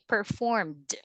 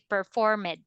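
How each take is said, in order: First: The ending is a plain d with no extra syllable. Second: The ending is said as an extra id syllable. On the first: The speaker calls it right. "We say performed" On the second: The speaker calls it wrong. "we don't say performed"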